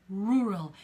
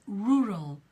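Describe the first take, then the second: No difference in how they are said.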